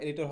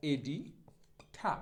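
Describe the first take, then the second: First: Said in the usual way. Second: এডিঠা split slowly as "e-di... tha"; slow model pronunciation. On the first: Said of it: "এডিটর হবে না". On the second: Shown as a demonstration. Teacher modelling editor for learners, slow এডিঠা ending in "tha". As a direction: stretch এডিঠা, aspirated ঠ and no final r. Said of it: "সঠিক উচ্চারণটা হবে এরকম".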